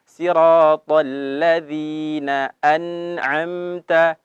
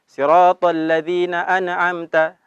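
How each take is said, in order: First: The phrase is recited slowly and carefully. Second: The phrase is recited in a hurry. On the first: The speaker calls it right. "Jadi perlahan" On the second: The speaker calls it wrong. "jangan terburu-buru ... salah"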